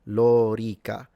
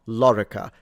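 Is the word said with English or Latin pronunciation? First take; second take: Latin; English. First: It is said the Latin way, long o. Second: It is said the English way. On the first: The speaker calls it right. "both the O and the E are long" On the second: The speaker calls it wrong. "it's not lorica. Fine in English"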